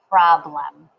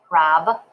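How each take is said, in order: First: Said in the usual way. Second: "Problem" broken as prob, long pause, lem; split syllables. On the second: Shown as a demonstration. Teacher giving learners time to write, syllable by syllable. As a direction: say "Problem" in two beats. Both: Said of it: "and get problem".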